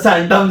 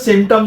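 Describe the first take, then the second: First: The word begins with a 'san' sound. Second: The word begins with a 'sim' sound. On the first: The speaker calls it wrong. "सैंटम्स नहीं होता" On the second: The speaker calls it right. "सिम्टम्स होता है"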